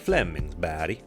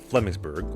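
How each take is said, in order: First: The name is said with a Swedish accent. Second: The name is said with an English accent.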